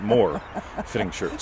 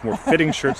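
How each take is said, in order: First: The stress falls on the word more. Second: The stress falls on the word fitting. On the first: A greater number of shirts. The speaker calls it wrong. "not more fitting shirts" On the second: The shirts fit the body more closely. The speaker calls it right. "So it's more fitting shirts"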